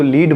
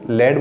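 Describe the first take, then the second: First: The word has a long ee vowel. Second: The word has a short e vowel. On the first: This is the everyday English word. "English में इसको लीड बोला जाता है" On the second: This is the chemical element. "हम chemistry में इसको लेड बोलेंगे"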